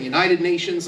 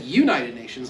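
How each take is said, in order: First: Texan pronunciation of "United Nations"; Texas accent. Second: Midwestern pronunciation of "United Nations"; Ohio accent. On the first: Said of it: "like we do in Texas". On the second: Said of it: "like they do in Ohio". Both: Shown as a demonstration.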